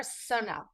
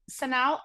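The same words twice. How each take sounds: First: "Sonal" said SOH-nal, long o first; "Sonal" with a full "oh" in the stressed first syllable; rhymes with tonal. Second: "Sonal" said suh-NOWL, reduced first vowel; "Sonal" with a short, unstressed "Suh" opening; alternative pronunciation. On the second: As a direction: say "Sonal" as suh-NAHL, weight on the second syllable. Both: Shown as a demonstration. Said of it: "It's like tonal with an S".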